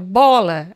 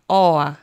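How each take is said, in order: First: The word is said with its consonants. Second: The word is said with its consonants dropped. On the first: "Você falava pra ela bola" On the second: "ela nunca falava consoante"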